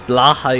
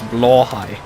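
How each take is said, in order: First: The word is said in a non-Swedish way. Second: The word is said in the Swedish way. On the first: The speaker calls it wrong. "Blahai is incorrect" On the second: The speaker calls it right. "the correct Swedish pronunciation"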